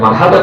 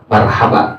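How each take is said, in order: First: The word ends with an n sound. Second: The word ends on a vowel, with no n. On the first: This is not how Arabs say it in greeting. "bukan marhaban" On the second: This is how Arabs actually greet guests. "marhaba bilangnya"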